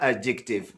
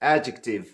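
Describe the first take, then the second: First: The stress is on the second syllable. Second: The stress is on the first syllable. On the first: The speaker calls it wrong. "نه په سیکنډ سلیبل باندې" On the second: The speaker calls it right. "په فرست سلیبل باندې سټریس"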